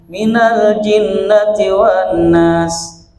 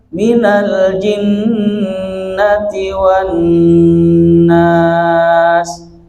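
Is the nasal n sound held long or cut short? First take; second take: short; held long. First: The nasal n sound is cut short. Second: The nasal n sound is held long. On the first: The speaker calls it wrong. "Jadi tidak ditahan itu" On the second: The speaker calls it right. "Harusnya ditahan"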